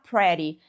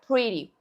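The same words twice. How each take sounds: First: The first vowel sounds like Portuguese 'eh'. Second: The first vowel sounds like English 'ee'. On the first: The speaker calls it wrong. "Você não vai falar pretty" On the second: The speaker calls it right. "é pretty"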